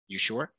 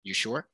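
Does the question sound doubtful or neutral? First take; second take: doubtful; doubtful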